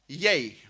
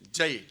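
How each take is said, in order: First: The word starts with a Y sound. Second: The word starts with a J sound. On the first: "spelled J Y, and pronounced Yay" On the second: "the way the J is pronounced in Malay language"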